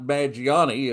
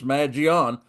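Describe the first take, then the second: First: The surname is said as Maggiani, four syllables. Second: The surname is said as Magion, three syllables. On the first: The speaker calls it wrong. "it's not Maggiani" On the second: The speaker calls it right. "it's Magion"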